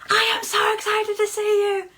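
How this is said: It sounds exaggerated and over the top.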